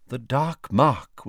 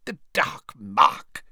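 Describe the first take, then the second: First: Said in the usual way. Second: Slow, drawn-out mutter to himself; musing, stretched-out character mutter. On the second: A narrator's reading. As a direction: mutter DARK MARK slowly, higher in pitch. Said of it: "he muttered".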